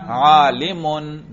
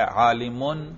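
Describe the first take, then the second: First: عالمن drawn out slowly, ending clearly -un; عالمن long and slow with a clear -un ending; nominative ending shown. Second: Said in the usual way. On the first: Shown as a demonstration. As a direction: stretch عالمن out, landing hard on -un. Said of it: "دیکھو رفع پر میں تلفظ کر رہا ہوں". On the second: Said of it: "دیکھا تلفظ سے ہی اعراب کا پتہ چل رہا ہے".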